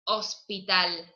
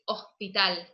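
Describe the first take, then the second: First: The s is pronounced as a clear hissing s. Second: The s becomes a breathy h-like sound. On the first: "We don't say hospital" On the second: "We say hospital. It's like"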